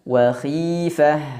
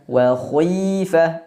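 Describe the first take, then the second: First: The kh sound is light and thin. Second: The kh sound is heavy and thick. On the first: The speaker calls it right. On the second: The speaker calls it wrong.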